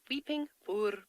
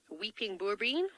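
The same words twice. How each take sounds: First: "boerbean" said carefully, trying for an Afrikaans R; a careful second go at Afrikaans "boerbean"; Afrikaans pronunciation attempt. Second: "boerbean" in an oddly accented Afrikaans attempt; slightly off accent on "boerbean", rising at the end; weird accent. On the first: Shown as a demonstration. Guide correcting herself on the tree's name, careful Afrikaans "boerbean". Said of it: "Afrikaans is this interesting language where you have to roll your R's".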